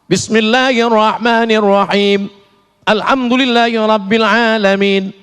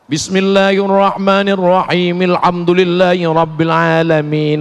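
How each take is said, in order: First: The verses are separated by a stop. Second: The verses are joined without a stop.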